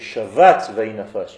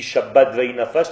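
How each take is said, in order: First: The first word has a soft v sound. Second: The first word has a hard b sound. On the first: The speaker calls it right. "Il n'y a pas de point sur le bet" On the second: The speaker calls it wrong. "ça ne veut rien dire"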